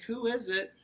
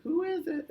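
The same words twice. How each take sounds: First: Higher-pitched grandma voice; moderately high storybook granny; Grandma calling. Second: Very high falsetto granny voice; exaggerated high mock-granny; wolf pretending Grandma. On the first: A narrator's reading. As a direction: call out lightly as a grandma. Grandma calls from inside. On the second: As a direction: fake a grandma in squeaky falsetto. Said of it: "he pretended like he was Grandma".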